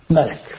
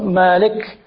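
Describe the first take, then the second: First: The first vowel is kept short. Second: The first vowel is drawn out long. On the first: "the other one is with just the Fatha" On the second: "One is with Alif Maqsura"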